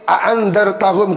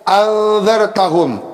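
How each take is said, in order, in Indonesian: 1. Kedua hamzah diucapkan penuh. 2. Hamzah kedua menjadi vokal panjang. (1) "dengan dibaca tahqiq a'andzartahum kedua hamzahnya" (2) "mengganti hamzah yang kedua menjadi alif"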